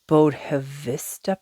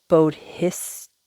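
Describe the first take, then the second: First: The word ends with the sounds 'vista'. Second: The word ends with the sounds 'sattva'. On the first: The speaker calls it wrong. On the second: The speaker calls it right.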